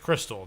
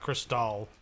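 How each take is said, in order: First: It sounds like the plain everyday word crystal. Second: It sounds like a fancy, foreign-styled champagne name. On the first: The speaker calls it right. "Just Crystal" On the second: The speaker calls it wrong. "not Crystal. Not she's not champagne"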